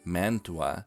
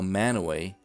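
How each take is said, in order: First: It sounds like man-tu-a, with a t. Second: It sounds like man-a-way, with no t. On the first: This is the name of the Italian city. "the city in Italy" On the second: This is the Ohio and Utah town name. "that's how it's pronounced in Ohio"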